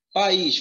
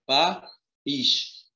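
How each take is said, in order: First: Said in the usual way. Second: País split into pa, pause, ís; syllable by syllable. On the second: Shown as a demonstration. Teacher showing how país is divided, syllable by syllable. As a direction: separate país into two spaced syllables. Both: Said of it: "como é que separa país?".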